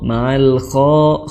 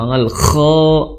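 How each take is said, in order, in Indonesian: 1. Bunyi kha itu lembut dan ringan. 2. Bunyi kha itu kuat dan tegas.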